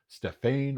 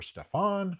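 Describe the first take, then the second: First: Stefan with a long AY in the last syllable; alternative pronunciation. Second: Stefan with an open AH in the last syllable; alternative pronunciation. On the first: Host offers a first guess at the film title, Stefan ending in -AYN. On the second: Host offers another guess at the film title, Stefan ending in -AHN. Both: Shown as a demonstration. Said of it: "not quite sure how to pronounce that one".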